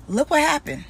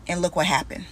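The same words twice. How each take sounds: First: "Look what happened" again, higher and pointed; emphatic repeat. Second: Said in the usual way. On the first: Real, not acted. To viewers, stressing the ex's downfall, pointedly.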